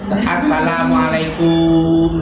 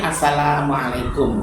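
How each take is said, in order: First: The vowel in the final 'kum' is drawn out long. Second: The vowel in the final 'kum' is kept short. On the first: It wishes peace upon an insect. The speaker calls it wrong. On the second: It wishes peace upon the listeners. The speaker calls it right.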